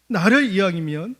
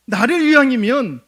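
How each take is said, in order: First: Said in the usual way. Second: 나를 punched high and loud, falling; emphatic plea. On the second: Acted. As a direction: hit 나를 hard and let it drop. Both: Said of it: "우리가 남이가".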